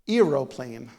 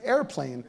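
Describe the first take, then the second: First: The word is said with three syllables, aero-plane. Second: The word is said with two syllables, air-plane. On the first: The speaker calls it wrong. "I'm pretty sure I was pronouncing it incorrectly" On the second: The speaker calls it right. "I pronounce it airplane"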